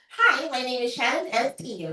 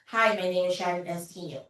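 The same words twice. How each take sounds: First: It is said with a smile in the voice. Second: It is said without a smile in the voice.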